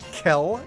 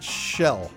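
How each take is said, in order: First: The name begins with a hard K sound. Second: The name begins with a soft SH sound. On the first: "one of whom pronounces it Kel" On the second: "the other one pronounces it Shell"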